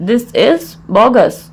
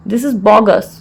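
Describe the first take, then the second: First: Measured, with a clear mid-phrase pause; broken into parts. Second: Said in the usual way. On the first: Shown as a demonstration. Teacher repeats the phrase for learners, in separated parts.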